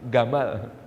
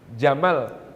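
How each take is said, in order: First: The word begins with a hard g sound. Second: The word begins with a j sound. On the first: This is how Egyptian dialect speakers say it. "jim dibaca gim... Itu dialek Mesir" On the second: This is the standard Arabic reading.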